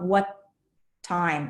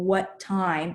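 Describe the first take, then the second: First: The two words are split by a short break. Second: The two words run together without a break. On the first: The speaker calls it wrong. "it's not what time" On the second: The speaker calls it right. "connect the words that um, you should not pause between"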